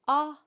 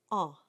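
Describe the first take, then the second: First: Plain open dark "ah" with no nasal air; oral ah. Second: "ah" nasalized, air through the nose, like French an; nasal ah. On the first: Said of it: "So we go from ah". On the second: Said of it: "Air goes through the nose". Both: Shown as a demonstration.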